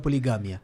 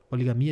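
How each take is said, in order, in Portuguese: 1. Tem a acentuação espanhola. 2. Tem a acentuação portuguesa. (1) "em espanhol, é poligamia. Aí muda, muda o acento" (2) "eles dizem em português"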